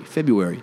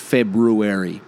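First: The r after the b is left out. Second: The r after the b is clearly pronounced. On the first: "I don't put that first R in there... the same way I say it" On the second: "February has another R in it right after the B. Like, it's February"

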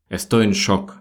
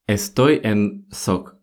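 First: The last word begins with an 'sh' sound. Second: The last word begins with a plain 's' sound. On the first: The speaker calls it right. "нормальный вариант и правильный будет «Estoy en shock»" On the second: The speaker calls it wrong. "В центральной части Испании можно услышать даже «сок»"

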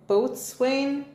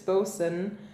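First: The word is said as spelled, boat-swain. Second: The word is contracted to two short syllables, bosun. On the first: The speaker calls it wrong. "I'm going to say this wrong because I do it every single time" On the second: The speaker calls it right.

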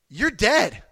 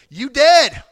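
First: It is said in a plain, mild way. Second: It is said in a strong, forceful way.

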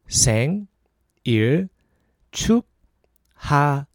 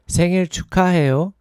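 First: It is said slowly. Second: It is said fast.

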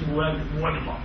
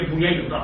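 First: The middle consonant is a w sound. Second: The middle consonant is a y sound. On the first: The speaker calls it wrong. "مش بويضة" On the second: The speaker calls it right. "هي بويضة"

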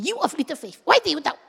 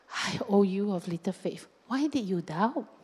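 First: It is said in an angry, scolding tone. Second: It is said in a gentle, tender tone.

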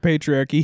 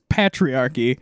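First: The word is said in a standard accent. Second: The word is said in a Canadian accent. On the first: "he never Says the word patriarchy" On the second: "He says patriarchy. In a Canadian way"

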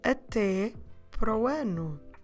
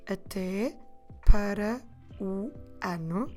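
First: It is said at normal speed, words merged. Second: It is said slowly, each word separate.

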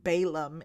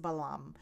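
First: The name is pronounced the English way. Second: The name is pronounced in a non-English way.

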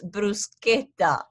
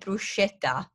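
First: The middle consonant is said as 'sk'. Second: The middle consonant is said as 'sh'. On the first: The speaker calls it right. "It's a sk sound. It's bruschetta" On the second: The speaker calls it wrong. "People call it bruschetta. Please do understand that it's not a sh sound"

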